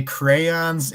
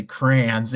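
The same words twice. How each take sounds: First: Crayons as "cray-ons"; two-syllable crayons. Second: Crayons as "crans"; one-syllable crayons. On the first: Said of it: "two that say crayons". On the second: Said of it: "and two that say crayons". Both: Shown as a demonstration.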